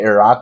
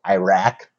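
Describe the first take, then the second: First: It is said with a native, non-American pronunciation. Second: It is said with a general American pronunciation. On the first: This is the real pronunciation. "you should say Iraq" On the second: This is how Americans say it. "but we say Iraq"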